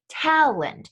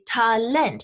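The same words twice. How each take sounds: First: The stress is on the first syllable. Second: The stress is on the second syllable. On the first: This is the English pronunciation. "In English, we say talent" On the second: This is the German pronunciation. "is being emphasized on that second syllable"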